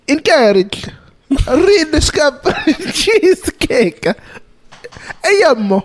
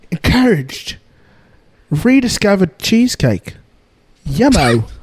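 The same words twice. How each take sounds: First: It is read in an Italian accent. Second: It is read in his normal accent.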